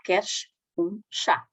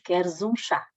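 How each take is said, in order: First: The final s of queres sounds like sh. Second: The final s of queres sounds like z. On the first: The speaker calls it wrong. "Já não dizemos ... porque ninguém fala assim" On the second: The speaker calls it right. "no português padrão, dizemos"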